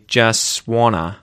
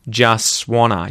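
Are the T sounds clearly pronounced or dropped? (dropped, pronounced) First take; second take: dropped; dropped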